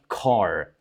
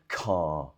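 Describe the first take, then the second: First: The final R is clearly pronounced. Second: The final R is silent. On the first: "if you are American, you'll have a rhotic R" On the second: "if you're British, you'll just say car"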